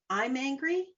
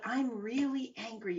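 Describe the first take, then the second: First: Higher, tense complaint of being angry; mildly heated declaration; demonstrated anger. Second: Notice it with interest, not heat; softly curious realisation; curious self-observation. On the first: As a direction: say it caught up in the anger. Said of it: "difference in the way I say that". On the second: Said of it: "you've got that curious hat on". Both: Shown as a demonstration.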